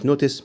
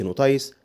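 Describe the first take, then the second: First: The ending is a short 'iss' sound. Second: The ending is a long 'ice' sound. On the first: The speaker calls it right. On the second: The speaker calls it wrong.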